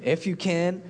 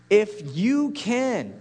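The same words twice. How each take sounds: First: Said in the usual way. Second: "you" slowed and leaned on, pitch falling through it; stress on you. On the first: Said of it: "Jesus said to him". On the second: Shown as a demonstration. Preacher pointing the question at Jesus, weight on "you". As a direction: land hard on "you" in "If you can". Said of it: "Jesus referring to himself".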